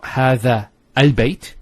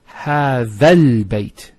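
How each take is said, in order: First: A glottal stop starts the second word. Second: The words run together with no glottal stop. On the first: The speaker calls it wrong. "So it's not هذا البيت. You don't pronounce this Hamzat al-Wasl here" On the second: The speaker calls it right. "It's هذا البيت"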